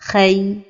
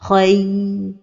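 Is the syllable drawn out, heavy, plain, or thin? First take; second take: thin; drawn out. First: The consonant is made thin and light. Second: The vowel glide is held for too long. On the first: "amincir la lettre Ra comme ceci" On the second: "donner beaucoup de temps à la lettre ligne"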